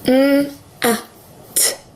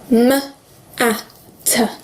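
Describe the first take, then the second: First: The m and t are pure sounds without vowels. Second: The m and t each end in an 'uh' vowel. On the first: The sounds blend into the word mat. The speaker calls it right. "Using proper phonics, the way that we need to do it" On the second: The sounds blend into the word matter. The speaker calls it wrong. "if you're using the schwa for m and t"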